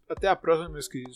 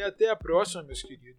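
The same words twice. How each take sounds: First: It is said without a Carioca accent. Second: It is said with a Carioca accent.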